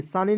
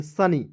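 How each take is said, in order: First: सानी with a long first aa, shown as the mistake; wrong long vowel. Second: सनी with a short first a, as sunny; correct short vowel. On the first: Teacher shows students the wrong reading, long aa in सानी. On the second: Teacher gives students the right reading, short a in सनी. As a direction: say सनी quick and short, not saani. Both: Shown as a demonstration. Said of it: "सानी नहीं पढ़ेंगे".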